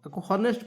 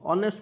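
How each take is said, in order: First: The word begins with an h sound. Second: The word begins directly with a vowel. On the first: The speaker calls it wrong. "ହନେଷ୍ଟ ପଡ଼ିବନି" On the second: The speaker calls it right. "ଅନେଷ୍ଟ ପଡ଼ିବ"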